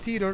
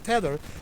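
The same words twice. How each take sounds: First: The word does not rhyme with 'leather'. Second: The word rhymes with 'leather'. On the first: The speaker calls it wrong. "not tether" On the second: The speaker calls it right. "but tether, like leather"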